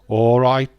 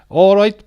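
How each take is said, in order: First: It is said in a Birmingham accent. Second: It is said in a Welsh accent. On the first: "you get a Birmingham accent" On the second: "Welsh accent. Let's try"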